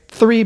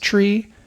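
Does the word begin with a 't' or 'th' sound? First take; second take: th; t. First: The word begins with a 'th' sound. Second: The word begins with a plain 't' sound. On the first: The everyday pronunciation. "the T H sound and also V's, they don't transmit well" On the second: The radio pronunciation, clearer over the air. "three becomes tree"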